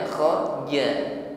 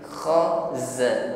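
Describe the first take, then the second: First: The second consonant sounds like j. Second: The second consonant is a hissing z. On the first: The speaker calls it wrong. "jangan jangan kha ja. Kha ja mirip huruf jim" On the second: The speaker calls it right. "ada bunyi desis"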